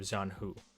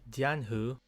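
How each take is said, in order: First: The name is said in a Western way. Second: The name is said in a Chinese-like way. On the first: "the more westernized pronunciation of" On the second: "more colloquially pronounced in Chinese would be something more like"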